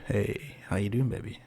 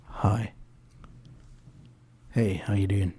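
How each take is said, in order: First: Soft, low come-on to the musicians; much softer, as if chatting someone up; seductive murmur. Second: Soft, intimate crooning into the mic; like flirting with the microphone, lower and softer; seductive murmur. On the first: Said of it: "I look at them and go". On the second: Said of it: "Stop trying to make love to the microphone". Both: Shown as a demonstration.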